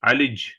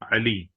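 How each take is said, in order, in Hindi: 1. शब्द 'j' व्यंजन पर खत्म होता है। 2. शब्द 'ee' स्वर पर खत्म होता है। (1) "अली को क्या बोल देंगे?" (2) "जैसे लफ्ज है अली।"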